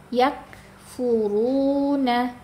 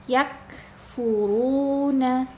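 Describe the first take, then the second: The two takes are said the same way.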